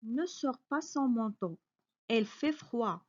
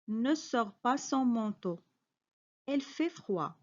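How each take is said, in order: Both takes have the same delivery.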